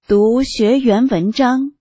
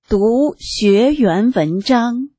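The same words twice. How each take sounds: First: It is read at a normal speed. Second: It is read at a slowed-down speed.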